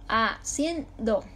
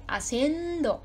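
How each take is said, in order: First: Haciendo slowly as a - cien - do; slow syllable-by-syllable Haciendo; split into syllables. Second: Haciendo with CIEN raised and held; a-CIEEN-do, joined up to show the stress. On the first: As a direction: break Haciendo into three separate beats. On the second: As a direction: lean on the middle syllable of Haciendo. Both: Shown as a demonstration. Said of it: "Ahí está la sílaba tónica".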